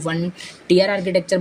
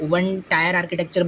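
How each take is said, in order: First: 'Tier' is said with an 'ee' vowel, like 'tear'. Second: 'Tier' is said with an 'eye' vowel, like 'tire'. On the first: "कोई one टीयर architecture बोलते हैं" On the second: "कोई one टायर architecture बोलते हैं"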